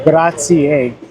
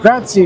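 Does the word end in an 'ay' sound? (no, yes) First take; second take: yes; no. First: The final vowel is an 'ay' sound. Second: The final vowel is not an 'ay' sound. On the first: The speaker calls it right. "the E is actually pronounced A, so it's actually pronounced grazie" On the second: The speaker calls it wrong. "And I was saying grazie"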